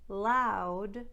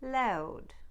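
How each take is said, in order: First: The vowel starts with an open ah sound. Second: The vowel starts with an eh sound. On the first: "It's the difference between ow and ow" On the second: "It's the difference between ow and ow"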